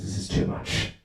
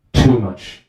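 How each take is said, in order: First: Hushed, voiceless exasperation; whispered inner thought. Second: "Too much" voiced firmly, TOO stressed; emphatic inner thought. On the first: Acted. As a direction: whisper it to yourself at night. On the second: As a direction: say "Too much" aloud with weight on "Too". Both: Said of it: "the wife, she thinks".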